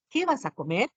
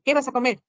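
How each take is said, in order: First: "Qué vas a comer" rising to a question at the end. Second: Said in the usual way. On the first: Shown as a demonstration. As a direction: really ask "Qué vas a comer", lifting "comer". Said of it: "Cuando estoy pre-, preguntando". ("Qué vas a comer" en tono de pregunta) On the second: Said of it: "Es diferente en este caso".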